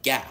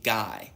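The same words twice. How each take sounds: First: GAH with a southern long open vowel; southern accent. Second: Said in the usual way. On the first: Retold or imitated. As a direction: imitate a southern dad saying "Gah". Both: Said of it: "he would say it with his southern accent".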